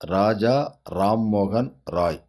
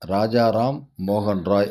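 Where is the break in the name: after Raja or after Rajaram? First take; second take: after Raja; after Rajaram. First: The break comes after Raja, before Rammohan. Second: The break comes after Rajaram, before Mohan. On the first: The speaker calls it right. "சரியான உச்சரிப்பு" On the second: The speaker calls it wrong. "அது தவறான உச்சரிப்பு"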